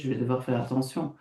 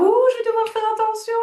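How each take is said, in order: First: It is said in a tense, glum tone. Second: It is said in a cheerful, excited tone.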